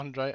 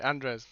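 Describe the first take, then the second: First: The name ends without an s sound. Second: The name ends with an s sound. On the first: The speaker calls it wrong. "Not Andre" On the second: The speaker calls it right.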